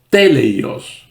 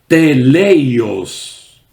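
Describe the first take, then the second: First: The stress is on the first syllable. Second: The stress is not on the first syllable.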